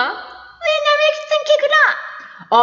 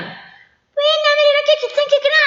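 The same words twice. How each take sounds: First: Very high, slow drawn-out woman's voice; mimicking a girl. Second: Very high, fast mincing woman's voice; mimicking a girl. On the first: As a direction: stretch the mock falsetto out slowly. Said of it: "꾀꼬리 같은 소리". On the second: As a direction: squeak like a prim schoolgirl. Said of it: "정말 꾀꼬리 같은 소리를 내었다".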